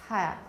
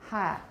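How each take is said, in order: No difference in how they are said.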